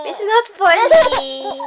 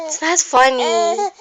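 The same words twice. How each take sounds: First: Higher, louder, laughing through it; anger turning to laughter. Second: Said in the usual way. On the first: Real, not acted. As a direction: scold but crack up. Scolding while laughing.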